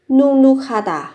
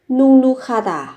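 No difference in how they are said.

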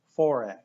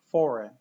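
Both takes have the same delivery.

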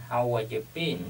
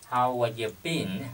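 Both takes have the same delivery.

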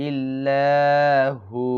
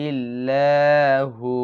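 No difference in how they are said.

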